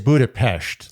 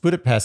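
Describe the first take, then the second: First: It is said the local, non-American way. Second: It is said the Americanized way. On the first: "it is Budapest. Like, if you really want to say it right" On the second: "But I think Americanized, it's Budapest"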